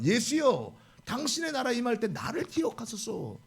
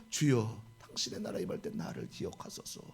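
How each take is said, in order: First: "당신의" pleaded a little higher, earnestly. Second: Whispered, much lower and softer; hushed plea. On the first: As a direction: beg sincerely, a touch higher. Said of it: "이렇게 간곡히 말을 합니다". (간곡하게 애원하듯) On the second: Thief's whispered confession. (속삭이듯 간절한 고백) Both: Retold or imitated.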